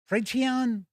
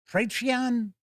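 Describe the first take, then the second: No difference in how they are said.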